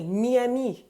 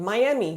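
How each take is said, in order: First: Miami as "mee-ah-MEE"; French pronunciation of Miami. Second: Said in the usual way. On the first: Shown as a demonstration. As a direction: say Miami with French vowels, stress last. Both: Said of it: "with the French pronunciation".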